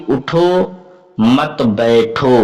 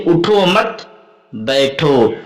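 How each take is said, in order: First: उठो said alone, a clear break, then a slow मत बैठो; pause after उठो. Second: उठो मत run together, a break, then बैठो alone; pause after मत. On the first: Teacher showing students that the pause changes meaning, pause after उठो. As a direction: stop on उठो, then run मत बैठो together. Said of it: "उठो पर रुक गया". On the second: Teacher showing the same words with another meaning, pause after मत. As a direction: join मत to उठो, stop, then drop onto बैठो. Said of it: "इस तरीके से कहूं". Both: Shown as a demonstration.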